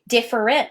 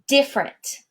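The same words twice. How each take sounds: First: The word has three syllables, all pronounced. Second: The word has two syllables, middle one dropped.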